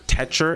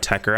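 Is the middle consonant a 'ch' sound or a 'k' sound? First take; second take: ch; k. First: The middle consonant is a ch sound. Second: The middle consonant is a hard k sound. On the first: The speaker calls it right. "is the proper pronunciation for it" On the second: The speaker calls it wrong. "I know some people want me to try Tekker out"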